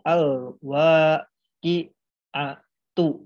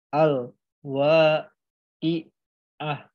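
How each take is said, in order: First: The word ends with a t sound and vowel. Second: The word ends with a soft h sound. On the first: The reading continues into the next word. "melanjutkan ini dibacanya" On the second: The reading stops at this word. "ketika teman-teman berhentikan"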